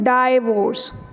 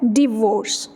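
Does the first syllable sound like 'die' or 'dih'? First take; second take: die; dih. First: The first syllable sounds like 'die'. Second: The first syllable sounds like 'dih'. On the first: The speaker calls it wrong. "डाइवोर्स गलत है" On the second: The speaker calls it right. "उसकी basic और actual pronunciation क्या है?"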